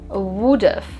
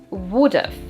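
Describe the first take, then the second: No difference in how they are said.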